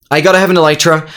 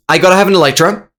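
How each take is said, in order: Both takes have the same delivery.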